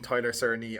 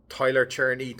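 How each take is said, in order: First: "Cerny" said with an opening S sound; soft C pronunciation. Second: "Cherney" said with an opening CH sound; CH pronunciation. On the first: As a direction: say "Cerny" starting like "sir". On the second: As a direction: say "Cherney" starting like "cherry". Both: Shown as a demonstration. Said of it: "not sure how it's pronounced".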